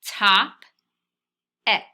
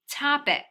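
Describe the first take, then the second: First: Top-ic split in two beats, loud; sounding out in syllables. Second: Said in the usual way. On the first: Shown as a demonstration. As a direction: read Top-ic as two chunks. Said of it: "read it the way we scooped it". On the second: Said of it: "the way we scooped it".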